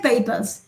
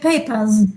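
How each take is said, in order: First: The final sound is a voiceless hissing s. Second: The final sound is a voiced buzzing z. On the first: The speaker calls it wrong. "you don't say papers" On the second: The speaker calls it right. "you say papers"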